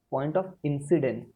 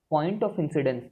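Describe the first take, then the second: First: Slow it right down so students can write; very slow dictation. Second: Said in the usual way. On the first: Shown as a demonstration. Teacher repeats the phrase for students to copy, very slowly. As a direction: point of incidence, drawn out word by word.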